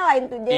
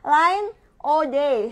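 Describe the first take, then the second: First: The name is read with English-style pronunciation. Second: The name is read with Indonesian spelling pronunciation. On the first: "bahasa Jaksonnya" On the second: "bahasa Indonesianya"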